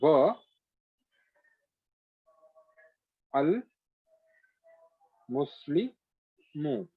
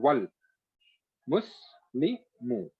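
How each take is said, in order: First: The vowel of 'al' is sounded separately. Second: The 'w' runs straight into the 'l'.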